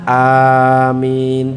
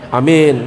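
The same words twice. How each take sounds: First: Both vowels are drawn out long. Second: Both vowels are clipped short. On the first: It is a plea for the prayer to be granted. The speaker calls it right. "A-nya panjang, minnya juga panjang" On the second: It means honest. The speaker calls it wrong.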